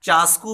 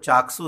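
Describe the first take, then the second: First: The middle consonants are said as 'sk'. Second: The middle consonants are said as 'ks'. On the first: This is the everyday village name. "देहातों के अंदर इसको चास्कू भी बोला जाता है" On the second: This is the proper name. "इसका जो असल लफ्ज़ है वो चाकसू है"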